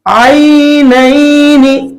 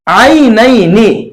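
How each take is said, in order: First: The vowel sound is drawn out and heavy. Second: The vowel sound is said softly and quickly. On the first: The speaker calls it wrong. "तो बिल्कुल गलत हो जाएगा" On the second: The speaker calls it right. "नरमी के साथ जल्दी अदा करना है"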